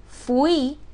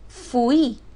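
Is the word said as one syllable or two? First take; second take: two; two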